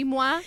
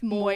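First: The name is said the French way. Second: The name is not said the French way. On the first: This is how French would have it said. "it should be Moi if you've taken any French" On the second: This is how the man himself says his name. "It's Moi, actually, which is even grosser"

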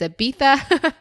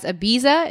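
First: It is said with a British pronunciation. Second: It is said with an American pronunciation.

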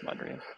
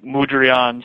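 First: The first syllable is said as plain 'mud'. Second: The first syllable is altered to sound exotic. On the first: The speaker calls it right. "it's just Mudrian" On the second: The speaker calls it wrong. "Everybody wants to make it sound way more exotic"

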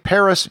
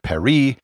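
First: It is said with an English pronunciation. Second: It is said with a French pronunciation. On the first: "I say Paris" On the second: "instead of Paris"

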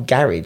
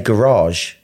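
First: Garage is pronounced the British way. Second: Garage is pronounced the American way. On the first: "why do you call garage?" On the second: "they say Garage"

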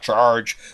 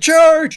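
First: It is said in a low, deep voice. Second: It is said in a high-pitched voice. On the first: "not charge" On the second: "he had a very high voice, and he went"

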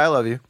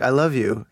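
First: The phrase sounds offhand and insincere. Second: The phrase sounds heartfelt and sincere. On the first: The speaker does not really mean it. "you can tell if someone's not being sincere" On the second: The speaker truly means it. "But if you're like"

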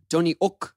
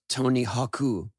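First: The H is dropped from the name. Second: An extra vowel is added to the name. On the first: "When they say my name in French, they don't pronounce the H" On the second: "in Japan, you have to kind of add a vowel"

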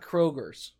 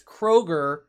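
First: The name ends with an added s sound. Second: The name ends without an s sound. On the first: The speaker calls it wrong. "not Kroger's" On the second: The speaker calls it right. "It's Kroger"

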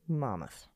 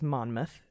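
First: It sounds like 'Mammoth', with the n sounds dropped. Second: Each letter is pronounced as it is spelled. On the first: The speaker calls it right. "the way a New Jerseyan pronounces Monmouth is Mammoth" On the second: The speaker calls it wrong. "I pronounced it phonetically"

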